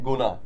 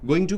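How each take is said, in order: First: The words blend into one reduced word. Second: Both words are said fully and separately. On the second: "गोइंग टू को हम क्या बोलते हैं"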